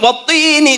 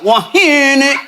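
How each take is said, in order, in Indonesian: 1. Konsonan tengahnya bunyi t yang jelas. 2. Konsonan tengahnya bunyi h yang berdesah. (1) "Harusnya kan watini" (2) "dia nggak wahini"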